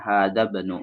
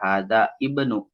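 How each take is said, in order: First: The i of ibnu is dropped and linked. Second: The i of ibnu is pronounced separately. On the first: The speaker calls it right. "tapi dibacanya hadza banu" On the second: The speaker calls it wrong. "Jadi tidak hadza ibnu"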